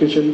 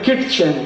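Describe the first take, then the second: First: No t sound comes before the ch. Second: A t sound comes before the ch. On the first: "टी silent है" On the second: "के I टी C H E N"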